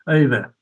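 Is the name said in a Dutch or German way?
Dutch. The name is said more softly, Dutch style. "Dutch tend to pronounce things a little softer, so it's more like Eva"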